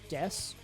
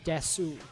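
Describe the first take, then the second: First: The final u is nearly silent. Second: The final u is fully pronounced. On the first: "they very much underpronounce the u" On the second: "you're supposed to pronounce des as desu, because it's de and su"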